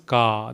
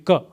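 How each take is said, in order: First: The vowel is said long. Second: The vowel is said short. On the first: "the longer one" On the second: "Had it been without a bar, it would be ka"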